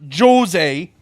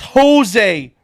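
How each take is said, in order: First: The name begins with a J sound. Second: The name begins with an H sound. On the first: The speaker calls it wrong. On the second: The speaker calls it right. "It's J that they don't pronounce"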